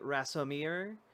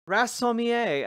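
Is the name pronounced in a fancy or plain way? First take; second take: plain; fancy. First: The name is given a plain, ordinary pronunciation. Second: The name is given a fancy, foreign-sounding pronunciation. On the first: "actually Rassommier" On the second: "I tried pronouncing it that way because it seemed fancy"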